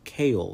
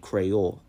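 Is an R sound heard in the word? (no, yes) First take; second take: no; yes. First: The word is said without an R sound. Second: The word is said with an R sound. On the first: "the R sound is dropped" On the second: "you can hear the R sound"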